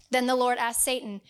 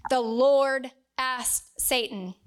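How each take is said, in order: First: Said in the usual way. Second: "the Lord asked Satan" said slowly, with weight on "Lord"; slow down and lean on "Lord" so they note it; slow emphasis. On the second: Shown as a demonstration. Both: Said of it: "note that down".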